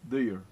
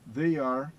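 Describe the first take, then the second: First: The words merge into one short syllable. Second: Two separate words are said in full.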